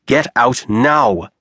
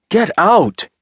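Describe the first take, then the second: First: Slow, controlled menace with an edge; calm with edge. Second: High loud furious scream. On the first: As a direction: hold it calm but dangerous, slowly. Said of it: "he spoke in a calm voice, laced with edge". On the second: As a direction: scream it at her, much higher. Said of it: "he screamed". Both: A narrator's reading.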